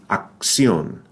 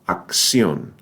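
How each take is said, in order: First: The cc is pronounced as a ks sound. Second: The same.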